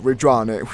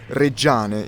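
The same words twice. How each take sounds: First: The name is said with English pronunciation. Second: The name is said with Italian pronunciation. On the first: The speaker calls it wrong. "I pronounce it wrong basically because it's not said Reggiane" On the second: The speaker calls it right. "We actually say Reggiane in Italian"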